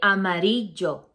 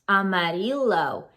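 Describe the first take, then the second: First: The double L sounds like an English Y. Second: The double L sounds like an English L. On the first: The speaker calls it right. "That's the correct way" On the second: The speaker calls it wrong. "a lot of English speakers pronounce this as L"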